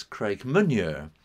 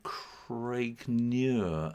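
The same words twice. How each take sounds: First: "Craigmaniur" with an extra "ma" in the middle; misread name. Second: "Craigniur" drawn out slowly; name said correctly. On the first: Dyslexic author showing listeners the misreading, "Craigmaniur" with an added syllable. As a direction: slip a "ma" into "Craigmaniur". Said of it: "I misread it as Craigmaniur". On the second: Telling listeners the port's name, "Craigniur" said slowly and correctly. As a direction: say "Craigniur" slowly, with no extra syllable. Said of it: "which is called Craigniur". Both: Shown as a demonstration.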